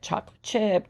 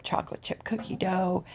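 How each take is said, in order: First: Said in the usual way. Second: Unvoiced whisper on "chocolate chip cookie dough". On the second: Real, not acted. Whispered repeat.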